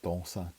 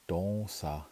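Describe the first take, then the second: First: The vowel is said short and quick. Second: The vowel is drawn out long. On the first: It is a repetitive past tense. "these are quick" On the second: It is an optative form. "when you put that lengthen in there"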